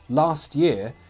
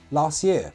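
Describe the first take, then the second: First: The T is said clearly before year. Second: The T is dropped before year.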